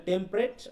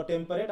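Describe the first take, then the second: First: "টেম্পারেট" shortened to tem-pret; two-syllable form. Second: "টেম্পারেট" in full as tem-pa-ret; three-syllable form. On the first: Teacher summing up both forms, "টেম্পারেট" as short tem-pret. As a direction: drop the middle vowel of "টেম্পারেট": tem-pret. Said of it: "টেম্পারেট অথবা টেম্পারেট". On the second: Teacher summing up both forms, "টেম্পারেট" as full tem-pa-ret. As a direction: sound the middle vowel of "টেম্পারেট": tem-pa-ret. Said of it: "তিনটা syllable ধরবো". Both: Shown as a demonstration.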